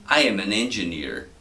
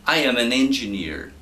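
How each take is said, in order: First: Second, lower model take, said for the class to copy; teacher repeats the sentence slower and lower for students to copy. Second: Said in the usual way. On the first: Shown as a demonstration. Teacher repeating the model sentence a bit lower and slower.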